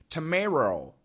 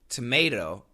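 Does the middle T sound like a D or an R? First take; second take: R; D. First: The middle T sounds like an R. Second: The middle T sounds like a D. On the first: The speaker calls it wrong. "sounds like an R, it'd be tomato ... What the heck is that?" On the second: The speaker calls it right. "the flap T is basically a D"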